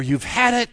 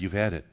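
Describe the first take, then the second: First: Loud, high, punchy verdict; mock threat. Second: Low-pitched, offhand brush-off; understated retort. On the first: Preacher imagining Jesus dismissing the rebel armies, loud mock threat. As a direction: shout it as a comic final warning. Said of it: "Probably just something like". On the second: Retold or imitated. Girl refusing boyfriend's final kiss, understated retort. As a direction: drop it dryly, without raising the voice. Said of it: "And she said".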